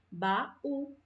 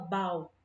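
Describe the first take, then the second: First: The two vowels form separate syllables. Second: The two vowels merge into one syllable. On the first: The speaker calls it right. "A gente fala baú" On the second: The speaker calls it wrong. "a gente não fala bau"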